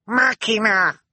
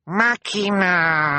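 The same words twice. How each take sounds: First: Very high, loud little shriek. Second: High, long drawn-out call; insist, stretching the last vowel right out; insistent cry. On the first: Sunny alerting the others to rescue, shrieking. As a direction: shriek it out like a small child. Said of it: "Sunny shrieked". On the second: Sunny pointing at the sky, insistent cry. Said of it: "Sunny insisted". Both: A narrator's reading.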